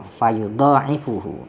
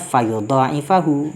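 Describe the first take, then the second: First: Long vowel before 'ain', ending in -uhu. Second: Long vowel before 'ain', ending in -ahu. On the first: "ditambah atau ada tambahan alif dan juga rofa" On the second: "bil alifi, dengan tambahan alif, wan nasbi"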